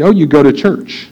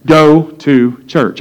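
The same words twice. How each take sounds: First: Said in the usual way. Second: Slow, deliberate echo. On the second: Retold or imitated. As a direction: GO TO CHURCH spaced out word by word. Slow echo underlining the phrase.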